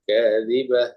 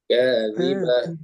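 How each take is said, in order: First: The final h sound is short. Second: The final h sound is drawn out. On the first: "kalau kita kan biasa saja" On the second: "Haknya itu agak berjalan"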